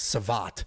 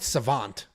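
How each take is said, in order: First: The last syllable has no n sound. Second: The last syllable has an n sound. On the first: The speaker calls it right. "now I realize it's Savat" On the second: The speaker calls it wrong. "I've been calling it Savant"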